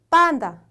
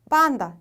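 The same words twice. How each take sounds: Both takes have the same delivery.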